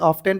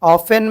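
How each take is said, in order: First: The t sound is pronounced. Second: The t sound is silent. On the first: The speaker calls it wrong. "बहुत सारे बच्चे pronunciation करते वक्त में ऑफेन को भी क्या पढ़ते हैं" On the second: The speaker calls it right. "टी आ गया"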